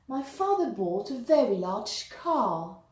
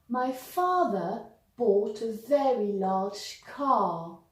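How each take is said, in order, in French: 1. La phrase est prononcée à un rythme plus rapide. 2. La phrase est prononcée à un rythme plus lent.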